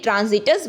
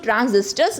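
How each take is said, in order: First: The s sound before the t is missing. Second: An s sound comes before the t. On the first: The speaker calls it wrong. "कल मैंने ट्रांजिटर्स बोला था जो कि गलत है" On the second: The speaker calls it right. "इसको ट्रांजिस्टर्स बोलते हैं"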